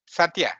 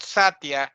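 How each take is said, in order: First: Satya with the stress on the final a; careful teacher's model of Satya; correct Sanskrit pronunciation. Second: Satya with the stress on the first a; mispronounced Satya, front-stressed; wrong pronunciation. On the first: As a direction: say Satya as sat-YA, end stressed. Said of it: "Bad pronunciation". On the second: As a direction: say Satya as SAT-ya, weak ending. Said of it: "not Satya". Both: Shown as a demonstration.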